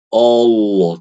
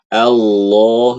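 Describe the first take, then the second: First: The vowel sounds round and heavy. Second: The vowel sounds bright, said with a slight smile. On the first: The speaker calls it wrong. "jangan baca Allah" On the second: The speaker calls it right. "tapi a, Allah"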